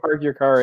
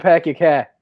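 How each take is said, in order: First: The r sounds are pronounced clearly. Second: The r sounds are dropped, giving broad vowels. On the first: "instead of saying park your car" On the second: "in Boston you pack your cat"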